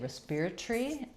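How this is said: It is said in a British accent. "They say respiratory"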